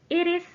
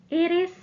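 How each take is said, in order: No difference in how they are said.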